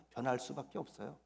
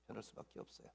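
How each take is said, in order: First: Said in the usual way. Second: Breathy hushed whisper of 변할 수밖에 없어요. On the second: Real, not acted. Pastor repeating his conviction to the congregation in a whisper. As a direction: let it fall to an intimate whisper.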